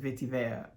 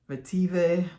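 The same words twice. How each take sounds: First: The word is pronounced the French way. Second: The word is pronounced the English way.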